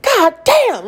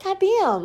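First: High, loud exasperated curse; exasperated outburst. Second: High, small squeaky imitation; squeaky little-kid voice. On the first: Retold or imitated. Mom cursing after tripping over a unicorn, exasperated. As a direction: re-enact a frustrated curse, pitched right up. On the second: Mom imitating her daughter's funny voice, squeaky. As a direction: mimic a toddler cursing in a tiny squeak. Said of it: "it's like a little squeaky voice".

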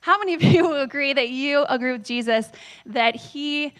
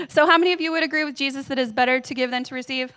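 First: Laughing through it. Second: Said in the usual way. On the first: Real, not acted. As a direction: question broken by a real laugh. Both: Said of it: "Oh, no, I just turned off my tablet".

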